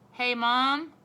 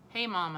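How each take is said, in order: First: Loud call across the house to Mom. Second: Said in the usual way. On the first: A narrator's reading. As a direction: call Mom from another room, loud and high. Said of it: "I called". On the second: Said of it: "I said".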